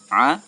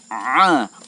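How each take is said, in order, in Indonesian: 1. Bunyi tenggorokan ditekan tetapi tetap sedang. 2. Bunyi tenggorokan sangat dilebih-lebihkan dan dipaksakan. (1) "Cukup sederhana saja" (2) "Jangan juga terlalu berlebihan sampai a, ai. Ya, ini ini berlebihan"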